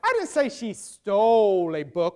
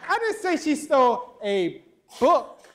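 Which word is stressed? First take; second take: stole; book. First: The stress is on the word stole. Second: The stress is on the word book.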